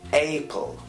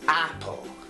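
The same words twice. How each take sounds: First: The first vowel is said like the letter name. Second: The first vowel is said like in cat. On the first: The speaker calls it wrong. "although we have A, we don't say apple" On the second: The speaker calls it right. "we say apple"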